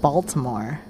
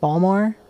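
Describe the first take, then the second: First: All three syllables are pronounced fully. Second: The middle syllable is dropped, giving two syllables. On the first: The speaker calls it wrong. "That's not how you pronounce it. It's not Baltimore" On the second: The speaker calls it right.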